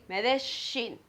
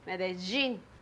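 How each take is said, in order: First: The double L sounds like sh. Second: The double L sounds like a j. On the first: "like the sh ... Then you would say Medellin" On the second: "In Medellin and Bogota, we say J"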